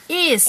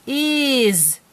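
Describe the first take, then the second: First: "Is" with a hissing s at the end; sounded out. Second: "Is" with a buzzing z at the end; said as a word. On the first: Parent shows child the sounding out, "Is" ending in sss. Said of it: "this is how we sound it out". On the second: Parent shows child how we say it, "Is" ending in z. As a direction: say "Is" as the real word, like izz. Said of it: "this is how we say it". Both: Shown as a demonstration.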